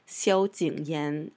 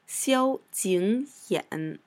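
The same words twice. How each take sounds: First: The last syllable has a rising tone. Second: The last syllable has a low dipping tone. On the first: This is how it is said in speech and the show. "they kind of change it to the second tone" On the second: This is the character's proper reading. "It's supposed to be the third tone"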